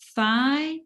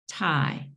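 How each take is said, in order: First: It begins with a soft th sound. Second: It begins with a hard t sound. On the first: The speaker calls it right. "one correct one" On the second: The speaker calls it wrong. "just not exactly American uh, English"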